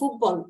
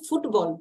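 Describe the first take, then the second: First: The t sound in the middle is dropped. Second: The t sound in the middle is pronounced.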